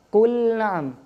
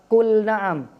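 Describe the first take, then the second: The two takes are said the same way.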